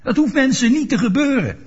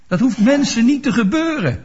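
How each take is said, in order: First: "hoeft" lifted high with a laugh in it; stress on hoeft, laughing. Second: Niet stressed, falling at the end; preacher leans on "niet". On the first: Preacher repeats it to the congregation, stress on hoeft with a laugh. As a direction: land on "hoeft" and let a chuckle through. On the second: Preacher tells the congregation, first stating it, stress on niet. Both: Shown as a demonstration. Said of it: "Ik zeg het nog een keer".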